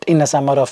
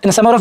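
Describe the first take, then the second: First: The words come at a steady, comfortable pace. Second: The words come at a rushed, fast pace. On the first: This is fluent reading. The speaker calls it right. "I was just trying to maintain that rhythm. It's a constant speed" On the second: Going too fast causes fumbling. The speaker calls it wrong. "If I read fast, I'll fumble"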